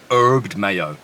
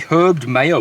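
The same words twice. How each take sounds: First: The h at the start is silent. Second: The h at the start is pronounced.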